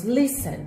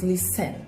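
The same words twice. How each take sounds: First: "listen" said LIS-en, first syllable stressed, second reduced; correct stress on first syllable. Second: "listen" said lis-TEN, full second syllable stressed; wrong stress on second syllable. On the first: Teacher modelling "listen" for students, stress on first syllable. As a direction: stress the front of "listen", LIS-sen, soft ending. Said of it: "a sílaba tônica dele é a primeira". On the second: Teacher showing students the wrong way, stress on second syllable. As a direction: hit the end of "listen", lis-TEN, as the mistake. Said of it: "Nós não dizemos listen".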